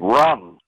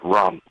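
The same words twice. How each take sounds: First: It is screamed loudly. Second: It is said at normal volume.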